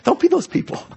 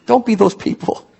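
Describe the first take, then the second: First: Don't be those people, sung up high and teasing; squeaky, teasing repeat; high playful warning. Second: Said in the usual way. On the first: Real, not acted. Preacher teasing the congregation, high playful voice. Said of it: "repeated higher". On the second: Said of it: "repeated with different tune".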